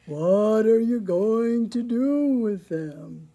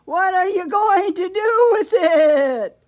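First: Loud, slow cow voice; storybook cow with drawn-out vowels; mooing cow. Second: Very loud, high, wailing bleat; bleating sheep. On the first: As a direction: moo the question out, long and slow. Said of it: "she mooed". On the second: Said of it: "she bleated". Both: A narrator's reading.

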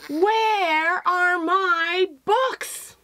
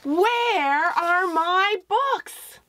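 First: High, very slow, drawn-out cry; a sad call stretched across the room; wailing refrain. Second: High, very slow, drawn-out cry; wailing refrain. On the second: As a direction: stretch it out like a lost child calling. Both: Acted. The book's title refrain voiced.

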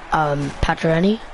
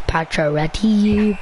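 First: Said in the usual way. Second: Pacioretty spelled out slowly, syllable by syllable; careful Pacioretty. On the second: Shown as a demonstration. Boy sounding out his favorite player's name slowly. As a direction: say Pacioretty slow and deliberate.

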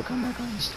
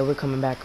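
First: Voice crack. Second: Said in the usual way. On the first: Real, not acted. Gamer rallying teammates mid-match, voice cracking. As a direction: voice cracks up high and thin. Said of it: "next time I had a voice crack like that".

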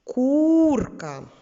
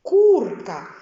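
First: Курка with the у sung out long, higher and louder; курка, у stretched and sung; intoning U. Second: Курка with the у held long, louder; курка drawn out on у; stretched vowel. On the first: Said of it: "інтонуючи звук У". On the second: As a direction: lean on the у in курка. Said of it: "який у них спільний звук". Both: Shown as a demonstration.

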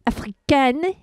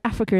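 First: "africaine" said the French way, ending in "-ken"; French pronunciation. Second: Said in the usual way. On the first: Shown as a demonstration. Host showing the French form of Africa, "africaine" in French pronunciation. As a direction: say "africaine" as a French word, stressed on the last syllable. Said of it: "is actually africaine in French". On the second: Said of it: "the word Africa is actually".

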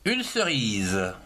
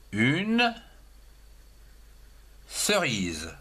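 First: Said in the usual way. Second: Put-on teacher dictating une cerise to children, slow; slow dictation. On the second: Shown as a demonstration. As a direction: dictate une cerise slowly, word by word, for young pupils. Teacher dictates word for pupils.

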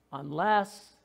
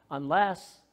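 No difference in how they are said.

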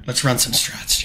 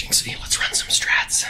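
First: Said in the usual way. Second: Breathy whispered line; whispering. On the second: Shown as a demonstration. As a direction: whisper it close to the mic.

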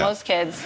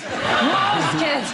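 First: Said in the usual way. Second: Higher, louder, laughing correction; laughing stress on most. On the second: Shown as a demonstration. Comedian correcting herself, laughing, stressing "Most".

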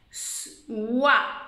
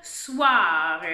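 First: "Soir" split into a long s, then wa; sound by sound. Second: Said in the usual way. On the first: Shown as a demonstration. Teacher sounds out word by sounds. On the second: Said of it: "Dernier mot de la phrase".

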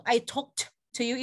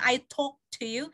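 First: "talked" with a separate t before "to"; sounded final t. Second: Said in the usual way. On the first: Shown as a demonstration. Teacher explaining past meaning, "talked" with its final t sounded. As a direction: slowly sound the t ending "talked". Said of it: "ada tehnya di belakang". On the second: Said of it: "Jadi kalau saya bilang".

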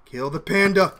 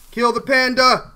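First: Said in the usual way. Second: Slower, louder order; insistent command. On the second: Real, not acted. Gamer urging himself to kill the panda player, slow and loud. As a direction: drag it out and mean it. Repeated command, second stronger.

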